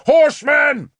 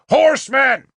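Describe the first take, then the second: First: High, loud shouted alarm; cried warning. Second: High, loud repeated alarm; shouted warning. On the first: Guard crying a warning from the wall, loud. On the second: Guard shouting a warning from the wall, loud. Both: A narrator's reading. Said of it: "the guard cried".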